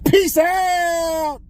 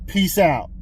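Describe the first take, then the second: First: It is said loudly, with lots of energy. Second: It is said flatly, with little energy. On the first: The speaker calls it right. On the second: The speaker calls it wrong.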